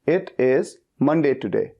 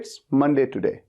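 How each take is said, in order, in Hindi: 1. "It is" को दो पूरे शब्दों की तरह बोला जाता है। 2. "It is" को एक सिलेबल में छोटा करके बोला जाता है। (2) "इट इज की जगह पे इट्स कह देते हैं ताकि उससे फ्लुएंसी भी बढ़ती है"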